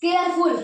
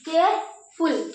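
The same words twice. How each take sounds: First: Said in the usual way. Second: careful slowly split into care and फुल; pause after care. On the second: Shown as a demonstration. Teacher shows students the syllables, careful broken after care. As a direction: say care, stop, then फुल. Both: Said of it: "care पे रुके".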